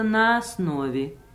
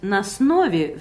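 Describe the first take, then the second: First: The vowel after 'на' is clearly pronounced. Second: The vowel after 'на' is swallowed. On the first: The speaker calls it right. "вместо" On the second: The speaker calls it wrong. "Нельзя говорить"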